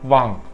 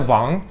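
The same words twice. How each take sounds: First: The word is said with no tone. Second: The word is said with a rising pitch. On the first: It is the Korean word for king. "herhangi bir ton falan yok" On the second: It is the Chinese word for king. "ikinci ton mesela, yükselen"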